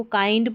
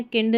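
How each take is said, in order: First: काइंड with a long "eye" vowel; correct "kaind" pronunciation. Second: किंड with a short "ih" vowel; mistaken "kind" reading. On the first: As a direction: say काइंड to rhyme with "find". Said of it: "को काइंड पढ़ना है". (काइंड, "आइ" स्वर के साथ) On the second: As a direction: misread it as किंड, rhyming with "pinned". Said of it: "किंड नहीं पढ़ना". (किंड, छोटी "इ" के साथ) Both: Shown as a demonstration.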